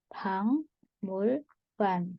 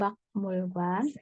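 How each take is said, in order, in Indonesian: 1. Suku kata pertama berakhir dengan bunyi ng. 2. Suku kata pertama berakhir dengan bunyi k. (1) "tapi dibaca Bangmulgwan" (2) "ini bacanya bukan Bakmulgwan"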